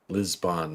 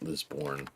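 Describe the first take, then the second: First: The second syllable sounds like 'bon'. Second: The second syllable sounds like 'born'. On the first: The speaker calls it right. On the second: The speaker calls it wrong. "not Lisborn. I probably said it wrong my entire life"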